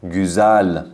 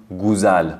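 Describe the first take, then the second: First: گوزل with a front rounded ü; correct ü. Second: گوزل with a plain u; wrong vowel. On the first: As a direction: say گوزل the right way with ü. (گوزل با صدای او با دو نقطه) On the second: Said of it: "که غلطه". (گوزل با صدای او) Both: Shown as a demonstration.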